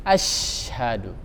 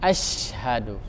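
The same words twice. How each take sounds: First: The sh sound is clearly hissed. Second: The sh sound is clearly hissed.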